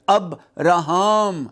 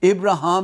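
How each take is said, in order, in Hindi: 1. नाम 'ab' ध्वनि से शुरू होता है। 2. नाम 'ib' ध्वनि से शुरू होता है। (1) "यही सही बोलने का तरीका है" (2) "इब्राहिम ना कहा करें"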